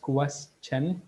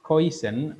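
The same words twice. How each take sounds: First: It begins with a clear 'kwes' sound. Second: It begins with a distorted, non-'kwes' sound. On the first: The speaker calls it right. "That's question" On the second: The speaker calls it wrong. "not question"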